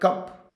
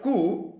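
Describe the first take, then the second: First: The final consonant sound is pronounced. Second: The final consonant sound is left out. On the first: "for the word cup" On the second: "letters such as P ... are omitted"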